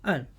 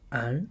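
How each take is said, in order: First: The pitch falls sharply from high to low. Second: The pitch rises from middle to high.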